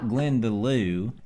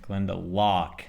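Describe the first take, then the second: First: The name ends with a 'loo' sound. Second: The name ends with a 'lock' sound. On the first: The speaker calls it wrong. "not Glenda Lou" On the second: The speaker calls it right. "Glenda Locke, not Glenda Lou"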